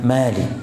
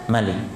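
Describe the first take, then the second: First: The first vowel is said long. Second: The first vowel is said short. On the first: The word means owner. The speaker calls it wrong. "bukan Malik" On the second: The word means king. The speaker calls it right. "dibaca Malik"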